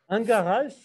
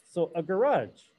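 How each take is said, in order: First: "garage" said the French way, garah-zh; French pronunciation. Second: Said in the usual way. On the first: Shown as a demonstration. Teacher models the French word for the class, French pronunciation. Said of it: "but with a French accent". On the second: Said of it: "If you said the English word".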